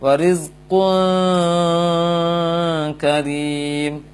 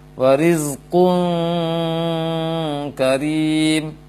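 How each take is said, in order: First: The nasal hum before k is barely heard. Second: The nasal hum before k is clearly heard. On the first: The speaker calls it wrong. "terlalu samar bunyi dengungnya" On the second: The speaker calls it right.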